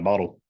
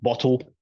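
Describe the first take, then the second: First: The t sound is skipped entirely. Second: It is said in a British accent. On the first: "they completely skip it altogether"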